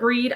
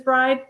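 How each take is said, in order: First: The vowel sounds like ee. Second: The vowel sounds like eye. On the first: This is the pronunciation the authors use. "We call it breed" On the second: This is the pronunciation some other people use. "I've heard other people refer to it as bride"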